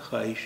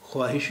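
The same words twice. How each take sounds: First: It is said without a w sound after kh. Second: It is said with a w sound after kh. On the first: The speaker calls it right. "इसका उच्चारण होता है ख्वाहिश" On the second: The speaker calls it wrong. "ख्वाहिश इसका उच्चारण नहीं होता है"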